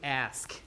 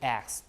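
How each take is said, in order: First: The s sound comes before the k sound. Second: The k sound comes before the s sound. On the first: This is the modern standard form. "in modern English, people switch it to ask" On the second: This is the older form from Old English. "we go back ... to the old way"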